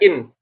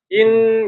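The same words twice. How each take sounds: First: The final n stops abruptly with no flow. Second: The final n keeps a little nasal flow. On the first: The speaker calls it wrong. "Jadi enggak in. Enggak langsung berhenti" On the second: The speaker calls it right. "In gitu"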